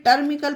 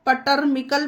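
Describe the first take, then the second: First: टर्मिकल beginning straight on the t, p silent; the right version, टर्मिकल with no p; correct pronunciation. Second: पटर्मिकल with the p sounded before the t; teacher shows the mistake, पटर्मिकल with a spoken p; wrong pronunciation. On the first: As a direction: say टर्मिकल, dropping the p entirely. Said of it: "इसे टर्मिकल पढ़ा जाएगा". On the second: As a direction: say पटर्मिकल with an audible p at the start. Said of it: "पटर्मिकल पढ़ना गलत होगा". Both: Shown as a demonstration.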